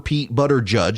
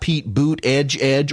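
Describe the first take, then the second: First: The surname sounds like 'butter judge'. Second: The surname sounds like 'boot edge edge'. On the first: "or Pete Butter Judge" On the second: "not Pete Boot Edge Edge"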